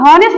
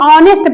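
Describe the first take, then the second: First: The word starts with an audible h sound. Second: The word starts directly with the vowel sound. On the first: The speaker calls it wrong. "ऑनेस्ट नहीं पढ़ेंगे" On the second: The speaker calls it right. "ऑनेस्ट पढ़ेंगे"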